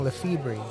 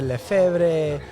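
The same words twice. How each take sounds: First: The name is said with an American English pronunciation. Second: The name is said with a Spanish pronunciation. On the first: It was meant to help the family blend in. "they started saying Lefebvre" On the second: It reflects a Spanish-speaking family. "They spoke Spanish. They pronounced it Lefebvre"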